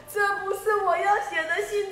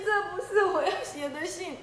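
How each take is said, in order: First: Lion objecting, pitched up; indignant protest. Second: Same protest dissolving into laughter; lion giggling as he repeats it; laughing protest. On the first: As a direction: insist it is not your letter. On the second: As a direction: laugh through the denial. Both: Acted.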